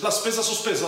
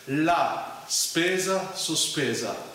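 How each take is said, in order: First: It is said very fast. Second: It is said at a medium speed.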